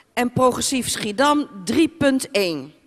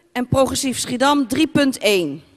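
No difference in how they are said.

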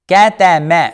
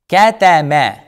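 The two takes are said the same way.

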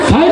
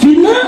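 First: The word is said like 'fine' with an eye vowel. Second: The word is said like 'veena' with an ee vowel. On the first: The speaker calls it right. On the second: The speaker calls it wrong.

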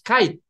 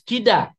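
First: It is said as kaid, ending in a consonant. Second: It is said as kida, ending in a vowel. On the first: This is the original Persian word. The speaker calls it right. "it's kaid, it's a Persian word" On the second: This is the traditional reading of the spelling. The speaker calls it wrong. "it has been pronounced as kida, which is not kida"

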